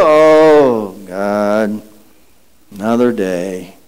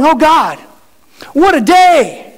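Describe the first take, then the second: First: Groaning grump. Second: High, bright, eager exclamation; joyful praise. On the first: Grumpy waker dreading the morning, low weary groan. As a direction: drag yourself out of bed with it. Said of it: "put your foot on the floor and go". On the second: Waker thrilled by the new day, bright joyful cry. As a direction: greet the morning with delight. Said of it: "And instead of going". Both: Acted.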